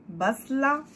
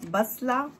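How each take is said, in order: No difference in how they are said.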